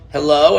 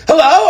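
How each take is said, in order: First: It is said in a calm, normal way. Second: It is said in a panicked, alarmed way.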